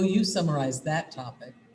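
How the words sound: The pitch falls at the end. The listener is restating what was said. The speaker calls it right. "Hear how the voice went down, modulated down at the end?"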